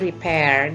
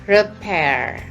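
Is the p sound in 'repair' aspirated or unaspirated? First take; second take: unaspirated; aspirated. First: The p is soft with no puff of air. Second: The p is released with a strong puff. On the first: The speaker calls it wrong. "Sering kita atau ibu khususnya nyebutnya repair gitu ya" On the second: The speaker calls it right. "Huruf P di sini harus meletup, jadi ada letupan"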